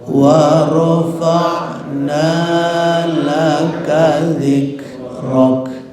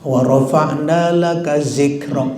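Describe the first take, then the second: First: The word starts with a soft, breathy dh sound. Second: The word starts with a buzzing z sound. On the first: The speaker calls it right. "Zik ada hamas, rok ada hamas. Itu harus dikeluarkan" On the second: The speaker calls it wrong. "Zik itu salah. Nanti lari ke zai"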